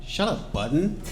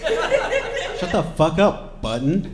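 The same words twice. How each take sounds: First: Higher, drawn-out mock put-down; mocking dismissal. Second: Higher, slower, more forceful put-down; escalated mocking dismissal. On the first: Revolutionaries cut Button off, mockingly dismissive. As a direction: dismiss him with a rising lilt. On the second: Revolutionaries silence Button harder, mockingly exasperated. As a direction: drag out the mock order.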